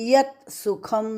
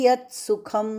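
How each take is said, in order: Both takes have the same delivery.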